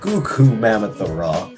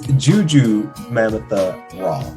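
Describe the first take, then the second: First: The first name begins with a hard G sound. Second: The first name begins with a J sound. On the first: This is how some other people say it. The speaker calls it wrong. "Some people keep saying" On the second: This is the correct name. The speaker calls it right.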